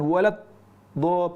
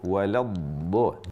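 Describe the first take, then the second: First: The sound stops briefly before the last syllable. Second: The sound flows on without a break. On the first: The speaker calls it wrong. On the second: The speaker calls it right. "ada aliran suara"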